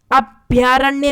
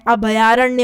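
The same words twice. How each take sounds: First: अभयारण्य said as abhyaaranya; wrong form. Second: अभयारण्य as a-bha-yaaranya; correct form. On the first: Teacher showing a common mistake, अभयारण्य with half bh. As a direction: run bh straight into y in अभयारण्य. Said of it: "अभयारण्य नहीं होता है". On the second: Teacher correcting students, अभयारण्य with vowel after bh. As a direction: sound a full bha in अभयारण्य. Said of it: "ये पूरा भा आता है". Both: Shown as a demonstration.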